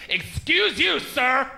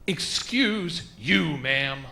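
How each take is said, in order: First: High, affronted mock-offended woman; indignant confrontation. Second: Very slow, deliberate comeback; staring her down. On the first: Offended woman confronting the comic over a joke, indignant. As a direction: get in his face, pitched way up. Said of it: "gets in my face and goes". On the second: Retold or imitated. Comic answering the offended woman face to face, staring her down. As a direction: draw out each word in measured rebuke. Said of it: "I stared her back in her face".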